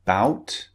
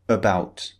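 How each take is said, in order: First: "Bout" as one syllable, rising tune; without schwa. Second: "about" starting on weak "uh", falling tune; with added schwa. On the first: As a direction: model "Bout" with no "uh" before the b. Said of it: "words that don't contain the sound". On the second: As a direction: model "about" with a short "uh" before the b. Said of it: "have an extra sound". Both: Shown as a demonstration.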